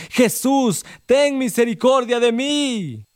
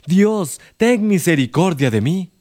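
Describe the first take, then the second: First: High, slow plea for mercy; the blind man cries out again over the beggars' hushing, high and slow; desperate cry. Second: Said in the usual way. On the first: Acted. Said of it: "él más le gritaba". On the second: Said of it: "Está usted dispuesto a decir".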